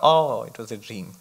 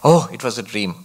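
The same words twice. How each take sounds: First: It sounds disappointed, sorry the nice dream wasn't real. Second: It sounds relieved, glad the nightmare wasn't real.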